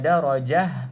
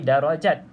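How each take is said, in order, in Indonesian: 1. Kata darajah berakhir dengan bunyi h yang lembut. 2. Kata darajah berakhir dengan bunyi t yang jelas. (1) "pastikan berhenti pada kalimah darajah ini" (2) "jangan berhenti darajat"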